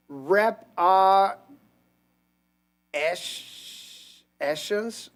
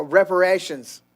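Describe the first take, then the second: First: "Rep R Esh- Eshens" broken into slow, separate syllables; sounding out haltingly. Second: Said in the usual way. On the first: Real, not acted. Reader stumbling over a misspelt word in a chat message, "Rep R Esh- Eshens" sounded out haltingly. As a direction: puzzle out "Rep R Esh- Eshens" piece by piece, pausing between.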